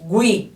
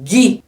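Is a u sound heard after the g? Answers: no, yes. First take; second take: yes; no. First: The u after the g is pronounced. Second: The u after the g is silent. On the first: "Como eu falei aqui, ó" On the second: "Não foi, porque eu falei gui"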